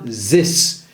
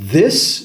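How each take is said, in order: First: It begins with a z or d sound. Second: It begins with a soft th sound. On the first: The speaker calls it wrong. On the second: The speaker calls it right.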